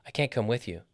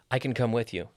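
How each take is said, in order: First: CAN'T with a full vowel and the main beat; stress on CAN'T. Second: CAN brief as "kn", beat on COME; reduced CAN. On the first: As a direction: hit CAN'T, then fall away. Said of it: "we stress the negative". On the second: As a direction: slide over CAN to COME. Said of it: "this is real English". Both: Shown as a demonstration.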